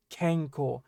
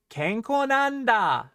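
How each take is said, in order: First: Said in the usual way. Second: Higher, slow "Kenko nanda" with a long final swell; emphasis on kenko. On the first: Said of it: "You're putting the emphasis on". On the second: Shown as a demonstration. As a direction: proclaim "Kenko nanda", stretching it out. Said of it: "You're emphasizing kenko".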